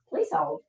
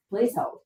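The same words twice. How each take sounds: First: Very high, quiet playful "Please hold"; sing-song please hold. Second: "Please hold" raised but less high, quiet, rising at the end; softer repeat of please hold. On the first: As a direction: chirp "Please hold" like a phone hold line. Pausing stream, asks viewers to wait. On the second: Repeats the hold request lower. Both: Pretend.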